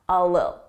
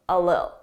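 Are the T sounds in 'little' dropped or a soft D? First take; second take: dropped; dropped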